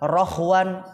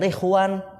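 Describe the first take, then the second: First: The first vowel is an o sound. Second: The first vowel is an i sound. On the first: "bisa ri ro ru" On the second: "bisa ri ro ru"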